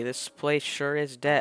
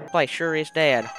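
First: It is said in the speaker's plain accent. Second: It is said in a put-on country accent.

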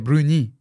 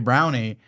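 First: It is said with a French pronunciation. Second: It is said with an English pronunciation. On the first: "French people say bruni" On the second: "to say brownie"

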